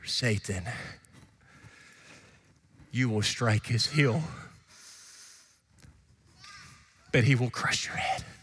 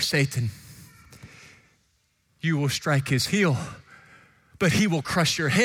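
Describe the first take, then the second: First: It is said more quietly. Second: It is said more loudly.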